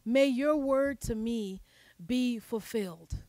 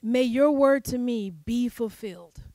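First: "May your word to me be fulfilled" drawn out slowly and softer; slow, softer reflective echo; slow, softening repeat. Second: Said in the usual way. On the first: Shown as a demonstration. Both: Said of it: "repeats the line more slowly".

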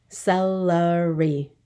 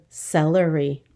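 First: "Celery" slowly in three beats, ce-le-ry; syllable by syllable. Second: Said in the usual way. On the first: Shown as a demonstration. Teacher counting for the class, "Celery" slowly split up. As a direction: stretch "Celery" out one syllable at a time. Syllable lesson, word broken up.

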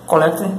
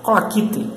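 First: Collecte read as spelled, koh-LEK-teh, stress on the second syllable; wrong pronunciation of collect. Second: Colaquite said KOH-lah-KEE-teh, clear model; right pronunciation of collect. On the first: Teacher voices a viewer's wrong collecte to correct it. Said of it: "Não, você tem que pe-, aprender pela pronúncia". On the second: Teacher contrasts the right Colaquite with the wrong collecte, clear. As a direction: model Colaquite carefully as the correct form. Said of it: "é a pronúncia dessa palavra". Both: Shown as a demonstration.

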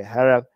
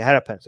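First: "harap" said slowly, like rapper with an A sound. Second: "harap" said with the ar of rapper, then pants. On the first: Practicing the word harap, sounded out like rapper. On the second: Streamer practicing the word harap, rapper A sound. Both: Shown as a demonstration. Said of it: "Think rapper with the A".

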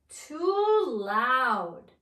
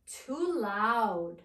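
First: Loud, stretched-out exasperation; acted loud complaint. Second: Said in the usual way. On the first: Shown as a demonstration. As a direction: blare both words, drawing them out. Complaint about loud diners, repeated bigger.

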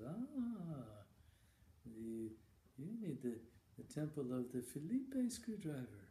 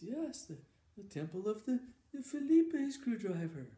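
First: Put-on an old monk explaining it patiently. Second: Put-on old monk repeating it much higher and louder; insistent old monk. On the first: Old monk answers Randy. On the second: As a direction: drill it into him, high and loud. Monk repeats to puzzled Randy.

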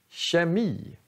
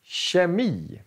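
First: Kemi said again with a soft tje sound, quieter. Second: Kemi with the k said as a soft tje sound. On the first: (kemi igen, mjukt tje-ljud) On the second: (kemi med tje-ljud) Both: Shown as a demonstration. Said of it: "Så vi säger".

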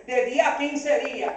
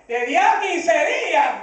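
First: Said in the usual way. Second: Slow, higher, drawn-out disbelief; incredulous echo. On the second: Retold or imitated. Pastor echoing the bank's waiting time back, incredulous. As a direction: throw it back as an outraged question.

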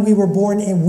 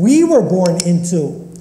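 First: Said in the usual way. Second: Emphatic "we" at the start; stress on WE. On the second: Real, not acted. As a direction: hit the word "we", then fall away through the rest. Rereads phrase to fix the emphasis.

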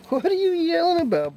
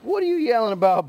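First: Much higher squeaky voice for the dog. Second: Light pet talk. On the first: Owner cooing at barking Bo, squeaky baby talk. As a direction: squeak it at him like a puppy. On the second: Cooing at barking dog Bo. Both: Real, not acted.

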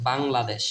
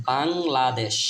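First: Said in the usual way. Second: Bangladesh drawn out in separate syllables. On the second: Shown as a demonstration. Teacher modelling the word for learners, Bangladesh slowly syllable by syllable. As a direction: sound out Bangladesh slowly, part by part.

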